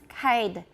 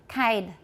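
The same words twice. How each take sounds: Both takes have the same delivery.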